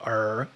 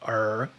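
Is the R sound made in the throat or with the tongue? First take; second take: throat; throat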